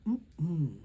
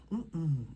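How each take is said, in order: Both takes have the same delivery.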